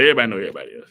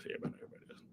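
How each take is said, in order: First: Said in the usual way. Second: Much softer, breathy aside; sly whispered repeat; whispered echo. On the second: Real, not acted. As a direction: whisper it back to yourself. Whispered echo of previous line.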